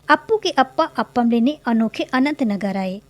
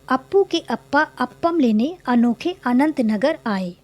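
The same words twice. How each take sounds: First: It is said very quickly. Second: It is read at a normal, slow pace.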